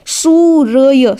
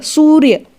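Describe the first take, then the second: First: सूर्य stretched out as soo-ra-ya; syllable-by-syllable demo. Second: Said in the usual way. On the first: Shown as a demonstration. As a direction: sound out सूर्य slowly, with र before य. (सूर्य को धीरे-धीरे तोड़कर, सू-र-य) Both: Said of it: "कैसे बोला जाएगा".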